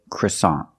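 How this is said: It is said with an American pronunciation. The speaker calls it right. "In English, American English, we say croissant"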